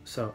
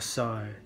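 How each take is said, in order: First: It is said in an American accent, vowel straight. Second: It is said in an Australian accent, vowel gliding. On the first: "アメリカ英語の場合" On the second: "オーストラリア英語とかだとSo とかなると思う"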